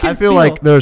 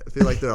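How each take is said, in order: First: It is spoken in an exaggerated put-on voice. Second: It is spoken in a plain natural voice.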